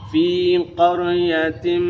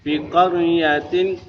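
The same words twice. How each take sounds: First: The vowel in fi is held for two beats. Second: The vowel in fi is short and rushed. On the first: The speaker calls it right. "fi ditahan dulu dua harokat" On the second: The speaker calls it wrong. "karena terlalu cepat"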